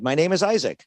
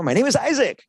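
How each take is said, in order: First: "My name is Isaac" with a flat falling close; flat period ending. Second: "My name is Isaac" much higher, punched and emphatic; bright emphatic "My name is Isaac!"; exclamation ending. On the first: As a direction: end "Isaac" down like a full stop. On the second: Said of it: "exclamation point". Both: Shown as a demonstration.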